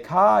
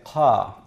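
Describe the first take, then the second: First: The consonant is an ordinary K sound. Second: The consonant is made further back, near the uvula. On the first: The speaker calls it wrong. "you don't say ka" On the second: The speaker calls it right. "you say ka"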